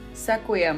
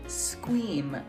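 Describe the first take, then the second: First: The name is said with several separate syllables. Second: The name is said in one syllable, rhyming with scream. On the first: The speaker calls it wrong. "So Sequiem was definitely not right" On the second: The speaker calls it right. "It's actually Squeam, like scream"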